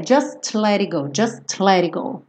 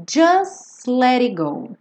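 First: Just let it go with the T of just sounded; T kept in just. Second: Just let it go slowly, as "jus-lerigo"; dropped T. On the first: Teacher shows the possible form, just with its T. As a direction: pronounce the final T of just before let. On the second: Teacher reads the lyric for students, just without its T. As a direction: skip the T of just, sliding into let. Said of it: "esse T não aparece". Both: Shown as a demonstration.

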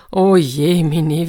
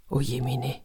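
First: Drawn-out, mournful wail, slow and a bit louder; slow lament. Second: Breathy whisper of despair, barely voiced; whispered sigh.

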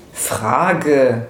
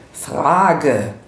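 First: A slow, falling, dismissive Frage; Frage. spoken as a cocky, dismissive retort; curt character voice. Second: Said in the usual way. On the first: A narrator's reading. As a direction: let Frage. drop off slowly, as the sneering Max. Max's answer in character voice.

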